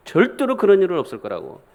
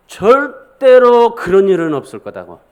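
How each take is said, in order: First: Said in the usual way. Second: Loud, slow, emphatic protest; forceful refusal. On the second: Acted. Peter refusing to accept Jesus' death, forceful. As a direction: hammer out 절대로, drawn out and loud. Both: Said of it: "강한 어조로 주님 앞에 그렇게".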